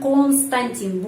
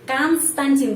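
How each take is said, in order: First: The first vowel sounds like 'o'. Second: The first vowel sounds like 'a'. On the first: The speaker calls it wrong. "bukan Konstantin" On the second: The speaker calls it right. "O dibaca A karena penekanan di sini pada I"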